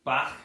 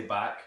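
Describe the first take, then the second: First: "Back" ending in a throaty ach; Liverpool pronunciation. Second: Said in the usual way. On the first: Shown as a demonstration. Teacher demonstrating Scouse, "Back" with a hissed throaty K. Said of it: "instead of the ak, we have ach". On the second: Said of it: "how we would say back".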